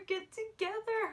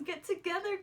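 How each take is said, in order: First: "get together" much higher, a pleading cry; more desperate urging. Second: Higher, eager plea to "get together"; eager urging. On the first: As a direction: beg them, climbing to the top of your voice. Repeats it, more urgently. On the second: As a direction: push them on, like a fan at the screen. Urging the couple to kiss. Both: Retold or imitated.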